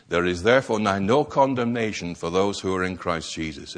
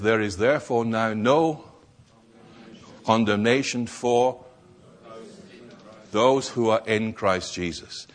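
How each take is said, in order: First: Said in the usual way. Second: Long pauses after "no" and after "for", each phrase set apart; weighty scripture reading broken into phrases; slow measured reading. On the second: Shown as a demonstration. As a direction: read "There is therefore now no" then pause, "condemnation for" then pause, then "those who are in Christ Jesus". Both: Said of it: "Romans eight and verse one says".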